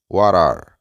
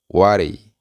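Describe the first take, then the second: First: Both words are said fully and separately. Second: The words are blended into one reduced word. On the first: This is the formal way to say it. "La manera formal es what are" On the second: This is the informal way to say it. "vamos a utilizar la manera informal. Vamos a decir whatty"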